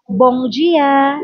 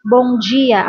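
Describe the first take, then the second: First: "Bom dia" as bong jee-a; pronunciation demo. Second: "Bom dia" with the m as ng and dia as jee-a; "Bom dia" as bong jee-a; pronunciation demo. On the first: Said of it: "ang M nila is parang N G". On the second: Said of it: "Ang pagka-pronounce nito". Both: Shown as a demonstration.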